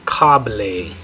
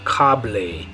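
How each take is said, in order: The two takes are said the same way.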